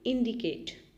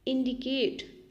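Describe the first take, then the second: First: Said in the usual way. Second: Slow. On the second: Shown as a demonstration.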